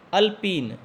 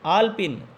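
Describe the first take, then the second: First: अल्पीन with a short first a; अल्पीन, the wrong version. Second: आल्पिन with a long first aa; आल्पिन, the correct version. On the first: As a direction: say अल्पीन as the mistaken form. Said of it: "तो अल्पीन नहीं होता". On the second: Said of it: "यह शब्द होता है". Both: Shown as a demonstration.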